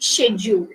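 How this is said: It starts with a 'sh' sound. "In British English you say schedule"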